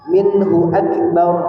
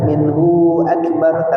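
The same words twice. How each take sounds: First: The vowel of 'hu' is kept short. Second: The vowel of 'hu' is held long. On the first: The speaker calls it right. "tidak dibaca panjang" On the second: The speaker calls it wrong. "tidak dibaca"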